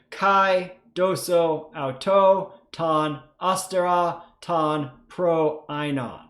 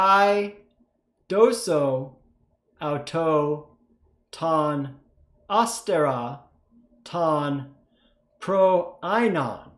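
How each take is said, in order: First: It is read a little bit faster. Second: It is read at a normal, slower pace.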